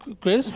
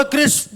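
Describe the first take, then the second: First: Losing confidence. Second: Confident. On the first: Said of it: "confidence down होने लग गया". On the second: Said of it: "भाई ने बड़ा confidently बोला". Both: Retold or imitated.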